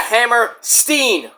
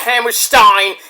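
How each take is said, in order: First: The last syllable sounds like 'steen'. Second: The last syllable sounds like 'stine'. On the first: The speaker calls it right. "it's the Hammer Steen Ballroom" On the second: The speaker calls it wrong. "Not the Hammerstein"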